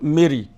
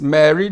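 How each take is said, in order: First: The first vowel is not the 'air' diphthong. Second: The first vowel is the 'air' diphthong. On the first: The speaker calls it wrong. "not Mary" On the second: The speaker calls it right. "That word is Mary"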